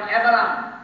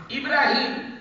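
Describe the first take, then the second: First: আব্রাহাম said the English way, abraham; আব্রাহাম with English sounds, not ইব্রাহিম; English pronunciation. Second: ইব্রাহিম said the Arabic way, ibrahim; Arabic pronunciation. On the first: Preacher contrasting the English আব্রাহাম for the congregation. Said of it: "এটা ইংরেজিতে বলে আব্রাহাম". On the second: Preacher giving the congregation the original name ইব্রাহিম. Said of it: "আমাদের ইব্রাহিম". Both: Shown as a demonstration.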